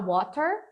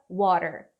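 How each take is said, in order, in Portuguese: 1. O som do meio é um t claro. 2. O som do meio é um flap, um r rápido. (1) "Você pode falar water, não tem problema" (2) "esse Tzinho aqui é bem provável dele virar tipo um sonzinho de R"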